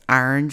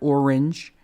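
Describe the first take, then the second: First: It is said in a regional home accent. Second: It is said in a standard, non-regional accent. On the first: The speaker calls it wrong. "I know I say orange wrong. ... It's because of where I grew up" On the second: The speaker calls it right. "instead of orange"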